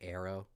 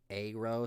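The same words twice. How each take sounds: First: The word is pronounced casually, like 'arrow'. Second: The word is pronounced carefully and distinctly. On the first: "so I just say arrow" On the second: "enunciate arrow"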